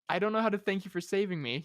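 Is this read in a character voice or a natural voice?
natural voice. It is read in a plain natural voice. "I'm just gonna read in my voice"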